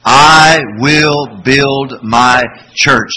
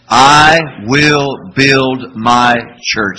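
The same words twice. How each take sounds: First: Very slow, loud chant; slow group recitation again. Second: Very slow, louder call-and-response; slow group recitation. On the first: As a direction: draw it out even louder. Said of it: "Say it again". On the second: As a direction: drag each word out with the congregation. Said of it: "Say that with me". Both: Shown as a demonstration.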